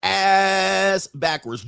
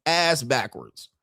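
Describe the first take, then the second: First: ASS backwards dragged out very slowly; slow emphatic repeat. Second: Said in the usual way. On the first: Shown as a demonstration. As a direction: stretch "Ass backwards" out word by word, hitting ASS.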